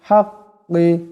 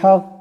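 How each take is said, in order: First: The word ends with a short i vowel. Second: The word ends on a bounced, echoing q sound. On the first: "কাফ জের কি" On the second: "এখানে দম সারলে কাফ সাকিন হয়ে যাবে কলকলা হবে"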